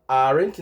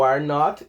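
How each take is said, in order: First: AREN'T as one word ending in n't; contracted form. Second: ARE NOT as two separate words; full form. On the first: Teacher shows what to say instead, contracted AREN'T. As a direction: squeeze ARE NOT into AREN'T. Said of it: "vai falar aren't". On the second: Teacher names the form to replace, uncontracted ARE NOT. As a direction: keep NOT whole after ARE. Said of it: "Em vez de falar o are not". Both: Shown as a demonstration.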